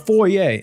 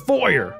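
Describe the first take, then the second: First: It is said the French way, ending in 'ay'. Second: It is said the English way, ending in 'er'. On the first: "not a foyer" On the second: "we don't live in France. It's a foyer"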